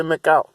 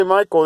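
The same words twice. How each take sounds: First: "Michael" said as mee-KOWT, short i, stress on the end; foreign pronunciation. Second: Said in the usual way. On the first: Shown as a demonstration. Showing how other countries say it: "Michael" as mee-KOWT. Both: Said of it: "some say Michael in a different country".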